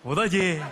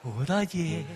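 First: It sounds open and bold. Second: It sounds soft and tender.

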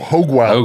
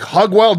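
First: The first word has a long O vowel. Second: The first word has a short O vowel. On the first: The speaker calls it right. "Long O" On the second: The speaker calls it wrong. "Don't say Hog Wild"

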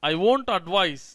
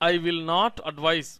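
First: Will not is contracted to one syllable, won't. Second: Will not is said as two full words. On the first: "ఇదే విషయాన్ని మనం ఇంకోలాగా కూడా పలుకుతాం" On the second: "విల్ నాట్ బదులు వోంట్"

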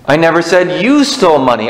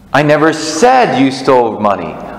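First: The stress is on "you". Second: The stress is on "said".

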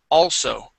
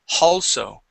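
First: The word begins with a vowel sound. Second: The word begins with an H sound. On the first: The speaker calls it right. "We want to remove the H" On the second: The speaker calls it wrong. "Here you had said halso, adding an H there"

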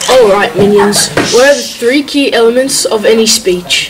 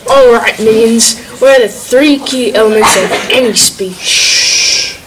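First: It is said at normal loudness and pace. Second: It is said louder and slower, with emphasis.

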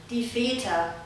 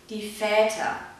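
First: The umlaut vowel sounds like a long E. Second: The umlaut vowel sounds like a long Ä. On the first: "Aus dem langen A wird ein E" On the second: "Man kann anstelle von einem langen E aber auch ein langes Ä sprechen"

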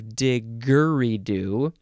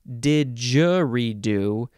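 First: The middle consonant is a hard g sound. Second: The middle consonant is a soft j sound. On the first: The speaker calls it wrong. "instead of diggeridoo" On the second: The speaker calls it right. "still pronounced didgeridoo"

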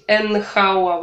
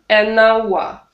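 First: Hour starts with a clear h sound. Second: Hour starts with a vowel, no h sound. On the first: The speaker calls it wrong. "Нельзя говорить энхауа. Вот это вот уже некрасиво" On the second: The speaker calls it right. "Мы добавляем артикль n, чтобы мы могли плавно сказать"

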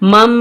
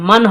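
First: The word ends with an m sound. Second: The word ends with an n sound. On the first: The speaker calls it right. "এটা পড়তে হবে মিম নুন মিম জবর মাম" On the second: The speaker calls it wrong. "মিম নুন জবর মান হবে না"

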